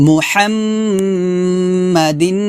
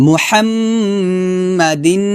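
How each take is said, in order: The two takes are said the same way.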